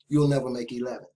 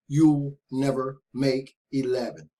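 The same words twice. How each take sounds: First: It is said at normal speed. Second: It is said slowly.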